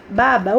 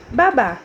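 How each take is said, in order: First: "Baba" stressed on first BA; stress on first syllable. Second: "Babá" stressed on final BÁ; stress on last syllable. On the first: Tia reading the unaccented word to pupils, first syllable stressed. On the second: Tia reading the accented word to pupils, last syllable stressed. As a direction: punch the second syllable of "Babá". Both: Shown as a demonstration. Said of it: "uma está com acento e uma está sem acento".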